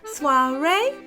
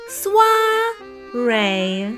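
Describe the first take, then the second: First: The word is said a bit faster. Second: The word is said slowly.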